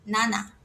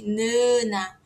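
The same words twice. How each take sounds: First: "naná" with both A's open, no nasal sound; open-vowel correct version. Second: "nana" with a nasalised first A, drawn out; nasal wrong version. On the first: Teacher corrects the nasal vowel, open-A demonstration. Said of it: "o A é sempre aberto". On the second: Teacher shows the sound Korean lacks, nasal demonstration. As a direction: stretch "nana" through a nasal first vowel. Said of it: "não existe esse som nasal". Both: Shown as a demonstration.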